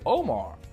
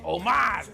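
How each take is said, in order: First: The name is said in a plain English way. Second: The name is said in a Spanish way. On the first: "you won't say"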